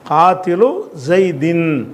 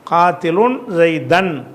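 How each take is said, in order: First: The first word ends without n; second ends in -in. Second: The first word ends in -un; second ends in -an. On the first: The two words form a possessive construction. "இலாஃபத்து பண்ணி சொல்கிறதும்" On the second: The second word is the object of the first. "தன்வீன் வச்சு இலாஃபத்து இல்லாமல்"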